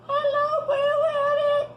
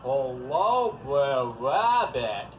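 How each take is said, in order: First: It is said in a high voice. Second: It is said in a very low voice.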